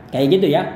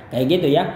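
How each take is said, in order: Both takes have the same delivery.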